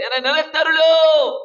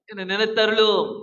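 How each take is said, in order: First: High, loud pleading cry to God; plea cried high and loud. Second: Said in the usual way. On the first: Acted. Preacher voices Hezekiah's plea.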